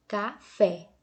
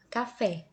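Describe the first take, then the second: First: "café" in two beats, louder, FÉ strong; stress on FÉ. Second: Said in the usual way. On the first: Shown as a demonstration. Teacher showing pupils the stronger last syllable, stress on FÉ in "café". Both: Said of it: "esse fé é mais forte".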